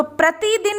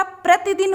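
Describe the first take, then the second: First: प्रतिदिन with ति lengthened to "tee"; wrong vowel length. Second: प्रतिदिन with a short "ti". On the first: Teacher showing pupils the misspelt word, प्रतिदिन with long ई. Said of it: "प्रतिदिन नहीं होता". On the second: Teacher correcting the misspelt word, प्रतिदिन with short इ. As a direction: say प्रतिदिन as "pra-ti-din", short इ. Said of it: "छोटी ई की मात्रा". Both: Shown as a demonstration.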